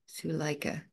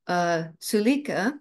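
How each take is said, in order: First: The middle vowel is an 'eye' sound. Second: The middle vowel is not an 'eye' sound. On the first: The speaker calls it right. "long I" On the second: The speaker calls it wrong.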